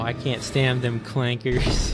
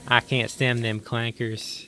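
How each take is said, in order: First: It is said in the speaker's plain accent. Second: It is said in a strong southern accent.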